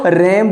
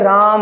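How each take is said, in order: First: The vowel is a short front 'a' sound. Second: The vowel is a long open 'ah' sound. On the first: It names a male sheep. The speaker calls it right. "इसको रैम बोला जाता है" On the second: It names a person called Ram. The speaker calls it wrong. "किसने कहा ये राम है"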